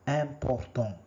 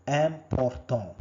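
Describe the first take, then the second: The two takes are said the same way.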